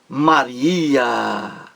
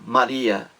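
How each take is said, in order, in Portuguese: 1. O nome é dito com forte ênfase exclamativa. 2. O nome é dito de forma neutra, sem ênfase. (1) "aí é exclamação" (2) "sem exclamação"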